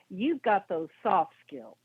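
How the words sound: The voice goes down at the end.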